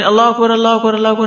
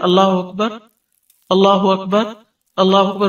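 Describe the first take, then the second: First: The phrases run together without pauses. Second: The phrases are separated by short pauses.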